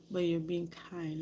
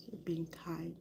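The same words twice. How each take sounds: First: Said in the usual way. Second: Soft breathy repeat of you're being kind; much softer hushed echo; whispered. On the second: Real, not acted. Repeats phrase, second one whispered.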